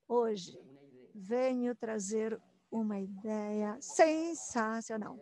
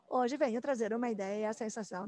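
First: The sentence is spoken very slowly and drawn out. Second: The sentence is spoken at a moderate speed. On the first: "Começo bem devagar, como se fosse uma história de suspense"

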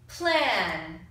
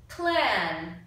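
No difference in how they are said.

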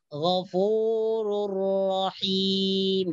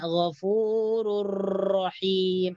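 First: The r has a light, short trill. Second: The r has a long, strong rolled trill. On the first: The speaker calls it right. "getaran yang ringan" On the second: The speaker calls it wrong. "itu sudah salah lah"

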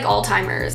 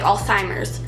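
First: The s sound is pronounced plainly. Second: The s sound is pronounced with a lisp. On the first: "I say it like Alzheimer's" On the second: "she pronounces it like she has a lisp"

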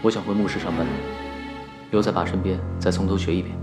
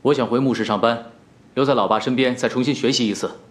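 First: It is said quietly. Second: It is said loudly.

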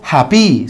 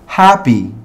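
First: The stress is on the last syllable. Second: The stress is on the first syllable. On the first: The speaker calls it wrong. "yo no digo happy" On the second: The speaker calls it right. "sino que digo happy"

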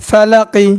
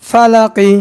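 No difference in how they are said.

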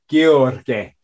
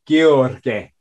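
First: The name is said with a Romanian pronunciation. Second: The name is said with a Romanian pronunciation.

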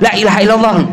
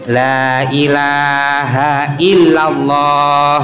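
First: It is said quickly, in a hurry. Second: It is said slowly and calmly.

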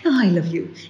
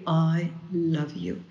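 First: It is said in an offhand, casual way. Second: It is said warmly and sincerely.

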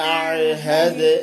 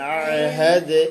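Both takes have the same delivery.

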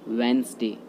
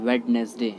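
First: The word is said with two syllables. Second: The word is said with three syllables. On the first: The speaker calls it right. "इसका right pronunciation होता है वेंसडे" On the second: The speaker calls it wrong. "दोनों ही गलत होता है।"

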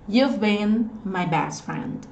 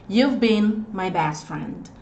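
Both takes have the same delivery.

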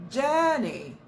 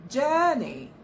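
The two takes are said the same way.

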